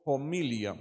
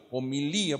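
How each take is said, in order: First: Homilia said like familia but starting with a Spanish J sound, xo-mi-lia. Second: Homilía said o-mi-LÍ-a, no J, stress on the last í; stress on final í. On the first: Preacher spelling it out for the congregation, homilia said with J. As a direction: start homilia with a rasping J, stress on mi. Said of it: "pero con J y O". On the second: Preacher giving the Greek form, homilía stressed on í. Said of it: "lleva el acento en la última I". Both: Shown as a demonstration.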